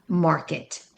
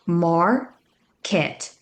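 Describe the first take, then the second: First: "market" run together as one word, no gap; blended whole word. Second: "Market" in two separate syllables, mar, then ket with a full e. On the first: Teacher putting it together, "market" said whole. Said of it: "and then put it together". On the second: Teacher blending each syllable, "Market" broken into syllables. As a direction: sound out "Market" slowly with a gap after mar. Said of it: "blend each syllable and then put it together". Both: Shown as a demonstration.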